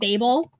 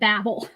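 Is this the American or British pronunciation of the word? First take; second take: British; American. First: It uses the British pronunciation of the word. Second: It uses the American pronunciation of the word. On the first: "The Brits are the ones there. It mostly pronounce it Babel" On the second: "If you're in the U S, we pronounce it Babel"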